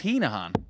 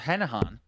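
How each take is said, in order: First: The first syllable sounds like 'heen'. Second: The first syllable sounds like 'hen'. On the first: This is how the name should be said. The speaker calls it right. "we were told it was Heenahan" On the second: This is how the name was first said. The speaker calls it wrong. "we called him Connor Henahan"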